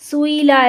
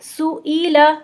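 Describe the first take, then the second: First: The vowels run together without a glottal stop. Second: A separate glottal stop divides the vowels. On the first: The speaker calls it wrong. "सुईला ऐसे नहीं पढ़ेंगे" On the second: The speaker calls it right. "बल्कि पढ़ेंगे सुईला... अलग से हमजा की आवाज़ निकलेगी"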